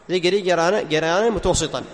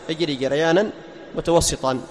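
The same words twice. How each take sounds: No difference in how they are said.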